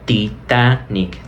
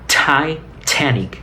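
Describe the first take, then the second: First: The first t is soft, without aspiration. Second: The first t is strongly aspirated, like spitting. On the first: The speaker calls it wrong. "No Titanic" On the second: The speaker calls it right. "estoy exagerando aquí para que puedan eh, darse cuenta del sonido real de la T"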